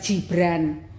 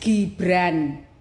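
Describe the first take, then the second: First: It begins with a soft J sound. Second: It begins with a hard G sound. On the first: The speaker calls it wrong. "bukan Gibran" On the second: The speaker calls it right. "the name is Gibran, G I G B R A N"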